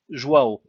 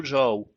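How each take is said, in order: First: "João" louder, re-said as "jwa-o"; corrected pronunciation. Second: "João" slurred into one syllable, like "jao"; misspoken Portuguese name. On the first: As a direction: correct yourself on "João" with a clear w glide. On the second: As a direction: botch "João", swallowing the w glide. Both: Real, not acted.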